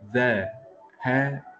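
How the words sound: Each sound is said separately with breaks. "je prononce chaque lettre tout seul"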